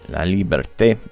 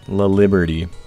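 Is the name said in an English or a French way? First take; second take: French; English. First: The name ends with a French-sounding té. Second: The name ends like the English word liberty. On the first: The speaker calls it right. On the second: The speaker calls it wrong.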